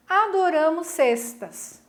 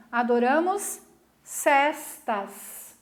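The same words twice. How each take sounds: First: "cestas" slowly, with closed E as in "mesa"; closed-E pronunciation. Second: "cestas" with open E as in "festa"; pause, then "cestas" with a wide-open E; correct open-E pronunciation. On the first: Teacher reading the first comic scene, closed-E "cestas". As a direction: draw out "Adoramos cestas", closed E in "cestas". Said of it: "a palavra tem pronúncia igual". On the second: Teacher reading the second comic scene, open-E "cestas". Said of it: "A pronúncia correta". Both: Shown as a demonstration.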